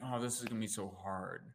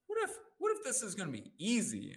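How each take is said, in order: First: Low, soft mock complaint; defeated statement. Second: Higher-pitched, wondering what-if; hopeful reframe. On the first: Demonstrating a statement that keeps people stuck, mildly defeated. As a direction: sigh it out as a stuck, negative thought. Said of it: "the statement". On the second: Coach demonstrating how to interrupt a negative pattern, hopeful. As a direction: lift it into an open, hopeful question. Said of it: "you interrupt that pattern and you say". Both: Shown as a demonstration.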